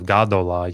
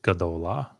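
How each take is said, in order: First: The first syllable has a full long A. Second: The first vowel is reduced and rushed over. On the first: "Instead of Gadola" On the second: "So notice the Shiva"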